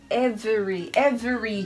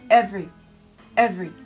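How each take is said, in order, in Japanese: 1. 最初の音節は強く読みません。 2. 最初の音節は強く読みます。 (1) "Every じゃなくて" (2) "え、ここにアクセントが来るので、ここをしっかりです。"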